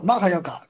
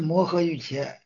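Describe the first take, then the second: First: The term is read as maha yoga. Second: The term is read as mohe yujia. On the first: This is the reading used in the Tibetan tradition. "这些藏历的它就是读作玛哈yoga" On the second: This is the modern standard Mandarin reading. "现在普通话读音是摩诃玉茄"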